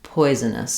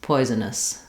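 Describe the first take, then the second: Both takes have the same delivery.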